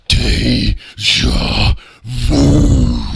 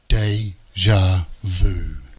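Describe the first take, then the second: First: It is said in a furious, heated voice. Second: It is said in a calm, plain voice. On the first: The speaker calls it right. "how Nels would say it" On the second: The speaker calls it wrong. "it wouldn't have sounded probably like that"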